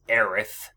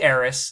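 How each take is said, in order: First: The name ends with a th sound. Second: The name ends with an s sound. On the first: This is the official name. "The actual name is Aerith, T-H" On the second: This is the form from the first release. "So I say Aeris"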